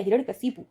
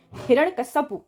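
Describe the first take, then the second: First: हिरण्यकशिपु with शि, said plainly; correct form. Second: हिरण्यकश्यपु said high, as the mistake; wrong form called out. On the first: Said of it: "कश्यपु नहीं होगा". (सही रूप हिरण्यकशिपु, सामान्य स्वर) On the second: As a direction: flag हिरण्यकश्यपु as wrong, pitched up. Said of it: "हिरण्यकश्यपु ना होके हिरण्यकशिपु होगा". (गलत रूप हिरण्यकश्यपु, ऊँचे स्वर में) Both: Shown as a demonstration.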